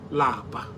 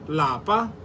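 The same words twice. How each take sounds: First: The word is said on a low tone. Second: The word is said on a high tone. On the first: It means to be tired. "Lower tone" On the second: It means home. "In higher tone"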